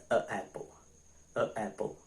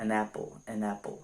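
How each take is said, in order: First: A apple with a clear break before apple; awkward pause between vowels. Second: An apple flowing with the n joining the vowels; linked with n. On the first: Teacher demonstrates the wrong form a apple with a break. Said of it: "Tá vendo que eu tenho uma pausa?". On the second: Teacher shows the correct linked form an apple. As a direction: say an apple smoothly, n linking into apple. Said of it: "esse N serve pra isso". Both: Shown as a demonstration.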